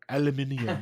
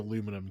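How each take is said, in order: First: The word is said with five syllables. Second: The word is said with four syllables. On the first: The speaker calls it right. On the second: The speaker calls it wrong.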